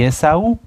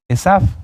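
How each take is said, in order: First: The name is said in its Spanish form. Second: The name is said in its Hebrew form. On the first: This is the familiar translated form of the name. "lo voy a decir en la forma eh, coloquial" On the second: This is the original untranslated form of the name. "Esav es el nombre hebreo"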